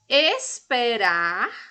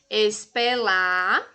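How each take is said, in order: First: The middle consonant is said as an R. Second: The middle consonant is said as an L. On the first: The speaker calls it right. "devem ser escritas corretamente" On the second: The speaker calls it wrong. "Quais são as palavras pronunciadas de maneira errada por ele?"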